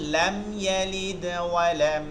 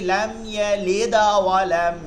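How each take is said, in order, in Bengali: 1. d-তে দুর্বল, হালকা কলকলা আছে। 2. d-তে জোরে কলকলা আছে, স্বরবর্ণের মতো। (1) "এইটা দুর্বল কলকলা করতে হয় একদম নর্মালভাবে" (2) "ইয়ালিদা লিদা গা হয়ে যাবে যদি আপনি সর্বোচ্চ কলকলা করেন"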